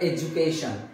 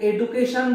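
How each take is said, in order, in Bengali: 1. দ্বিতীয় ব্যঞ্জনটি একটি 'j' ধ্বনি। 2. দ্বিতীয় ব্যঞ্জনটি একটি সাধারণ 'd' ধ্বনি। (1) "কিন্তু এর প্রোনাউন্সিয়েশনটা এডুকেশন" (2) "এখানে এডুকেশন বলি আমরা ঠিকই"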